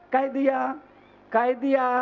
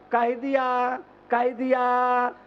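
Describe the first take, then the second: No difference in how they are said.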